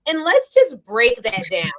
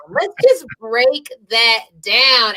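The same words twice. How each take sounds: First: Said in the usual way. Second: Stretched out, word by word; slow emphatic repeat. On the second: Real, not acted. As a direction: drag each word out for emphasis.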